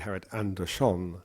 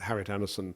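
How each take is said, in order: First: The name is said with a lilting Swedish pronunciation. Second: The name is said with plain English pronunciation. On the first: The speaker calls it right. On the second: The speaker calls it wrong.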